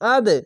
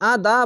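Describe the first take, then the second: First: It ends on a short bouncing d sound. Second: It ends with an added a vowel. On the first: The speaker calls it right. "নিচে সাউন্ড আসবে আদ" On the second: The speaker calls it wrong. "আদা বলবেন না"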